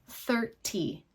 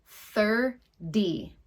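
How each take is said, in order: First: It is said in a British accent. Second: It is said in an American accent. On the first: "If we had more of a British pronunciation, we might say" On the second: "with my American pronunciation, it's more like"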